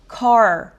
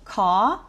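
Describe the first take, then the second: First: American accent, with the final R pronounced. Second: Australian accent, with no R and a long vowel. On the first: "미국식으로 하면" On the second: "호주식으로는"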